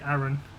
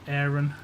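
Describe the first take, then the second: First: The name is said with a British pronunciation. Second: The name is said with an American pronunciation. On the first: "In the U K, we say Aaron" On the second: "but in America, they say Aaron"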